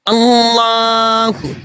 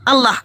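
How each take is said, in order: First: The double L is heavy and deep. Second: The double L is light and thin. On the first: The speaker calls it right. "Caranya kudu kandel, harus tebal" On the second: The speaker calls it wrong. "tadi kalau yang tipis itu siapa? ... Itu caranya Dokter Zakir Naik"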